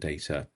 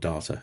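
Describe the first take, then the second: First: Data is said in a non-Australian way. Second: Data is said the Australian way.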